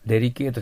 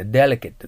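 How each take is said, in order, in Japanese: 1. カタカナのような日本語の音節で発音されています。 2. 英語のネイティブの発音で発音されています。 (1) "デリケートじゃなくて" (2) "delicate です"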